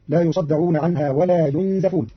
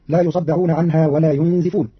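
First: ينزفون as yunzafuna, fatha on the zay; Qalun reading. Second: ينزفون as yunzifuna, kasra on the zay; common reading. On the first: Teacher shows Qalun's passive reading, yunzafuna. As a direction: read ينزفون slowly as yunzafuna. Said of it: "بضم الياء وفتح الزاي". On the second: Teacher recites the usual reading, yunzifuna. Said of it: "قرأ قالون كلمة ينزفون". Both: Shown as a demonstration.

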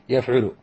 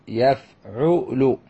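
First: Said in the usual way. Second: يفعل very slowly as yaf-'u-lu; drawn-out teaching model of يفعل; syllable by syllable. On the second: Shown as a demonstration. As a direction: sound out يفعل, each syllable separate. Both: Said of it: "هذا وزن فعل".

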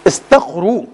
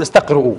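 First: استقروا said istaqru, ending in a plain long u with no hamza; correct pronunciation. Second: استقرؤوا said with a glottal stop before the final wu; wrong pronunciation. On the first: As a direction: say استقروا as istaqru, without any glottal stop. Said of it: "لا تقول استقرؤوا". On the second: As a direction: say استقرؤوا the wrong way, as istaqru'u with a hamza. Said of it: "لا تقول". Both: Shown as a demonstration.

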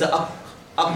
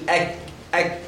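First: Short "أك" said as aq; heavy kaf. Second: Short "أك" with a thin front k; light kaf. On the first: Teacher showing the wrong letter, heavy q. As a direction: back the k of "أك" into a thick q. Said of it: "وليس". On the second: Teacher contrasting the two letters, light k. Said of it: "دي هذه مرققة الكاف، تقول". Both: Shown as a demonstration.

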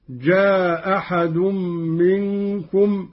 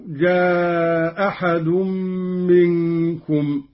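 First: جاء أحد said with the first hamza dropped and a short a; short vowel, dropped hamza. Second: جاء أحد with the first hamza dropped and the a of جاء held long; long vowel, dropped hamza. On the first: Teacher shows the qasr reading to students, short vowel. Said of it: "بإسقاط الهمزة الأولى مع القصر". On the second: Teacher shows the madd reading to students, lengthened vowel. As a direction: stretch the a of جاء, then slow منكم. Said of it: "مع القصر والمد". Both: Shown as a demonstration.

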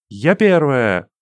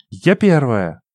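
First: Breathless shout of victory; out of breath. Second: Breathless triumphant cry; out of breath. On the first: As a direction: gasp it out after running. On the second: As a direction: pant it, stress on я. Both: A narrator's reading. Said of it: "задыхаясь, крикнула она".

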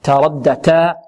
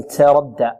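First: تردى opening on a clean, light ت without any hiss; pure ta. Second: تردى opening on a hissy "ts"; faulty "tsaradda" for تردى; ta tinged with seen. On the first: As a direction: keep the ت of تردى crisp and free of s. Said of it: "بل نقول تاء". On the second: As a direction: let an s leak into the ت of تردى. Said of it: "لا نشربها رائحة السين". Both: Shown as a demonstration.

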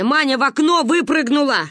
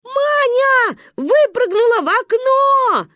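First: Slightly raised, forceful adult voice; urgent phone report. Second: Put-on high, loud, drawn-out child's scream; panicked shout. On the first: Acted. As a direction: report the emergency firmly. Grandmother explains urgently on phone. (взволнованно, по телефону) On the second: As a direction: scream the alarming news slowly. Children scream news to grandmother. (панический детский крик, протяжно)

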